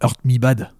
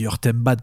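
First: The middle part sounds like the word me. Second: The middle part sounds like the letter M. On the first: The speaker calls it wrong. "pas Hurt Me Bad" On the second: The speaker calls it right. "On dit Hurt M Bad"

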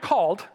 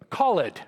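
First: The word is said as one syllable. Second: The word is said as two syllables. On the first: This is the ordinary pronunciation. "Not called" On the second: The pronunciation is changed to fit the music. "you have to have the right number of syllables for the music"

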